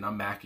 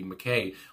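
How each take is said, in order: First: The name ends with a 'kee' sound. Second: The name ends with a 'kay' sound. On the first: The speaker calls it wrong. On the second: The speaker calls it right. "I think that's how you say it"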